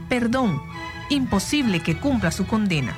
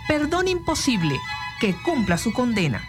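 First: There is a pause right after 'perdón'. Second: There is a pause right after 'imposible'. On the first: The pardon is granted; serving the sentence is impossible. "colocando la coma después de la palabra perdón" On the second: The pardon is refused; the sentence must be served. "utilizando, en este ejemplo, el signo de exclamación"

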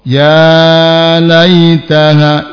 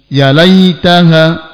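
First: The vowel of 'ya' is held too long. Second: The vowel of 'ya' is cut too short. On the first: "ini kepanjangan" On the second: "berarti kependekan"

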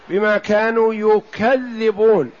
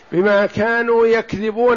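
First: The last word has a doubled dh sound. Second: The last word has a single dh sound. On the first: They call others liars. "والقراءة الثانية" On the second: They tell lies. "قراءتان سبعيتان"

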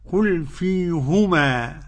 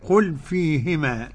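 First: The h is followed by a u vowel. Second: The h is followed by an i vowel. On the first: This is one reciter's reading. "قرأ يعقوب بضم الهاء هكذا" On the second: This is the other reciters' reading. "والباقون بكسر الهاء"

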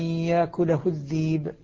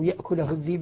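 First: The first word has no glottal stop; vowel lengthened. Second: The first word keeps a clear glottal stop. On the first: This is one reading tradition's version. "بالنسبة لورش" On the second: This is another reading tradition's version. "بالنسبة للكساء"

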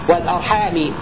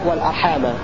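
First: The word ends with an i vowel. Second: The word ends with an a vowel. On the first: "بخفض الميم" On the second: "بنصبها"

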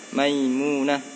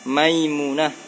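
Both takes have the same delivery.

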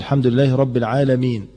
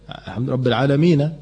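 First: The final n is stopped with no vowel. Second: The final n is followed by a short a. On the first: The reciter pauses at the end of the verse. "بالسكون المحض" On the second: The reciter joins it to what follows. "اما اجي اوصلها فتحة"

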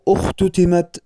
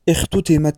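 First: The first vowel is a u sound. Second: The first vowel is not a u sound. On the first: The speaker calls it right. "والصواب اختتمت بضم الهمزة" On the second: The speaker calls it wrong. "ومن الأخطاء أيضا"

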